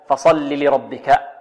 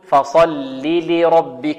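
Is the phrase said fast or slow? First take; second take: fast; slow. First: The phrase is said fast, running together. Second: The phrase is said slowly, each sound clear. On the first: The speaker calls it wrong. "بسرعة هكذا خطأ" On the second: The speaker calls it right. "بل نقول"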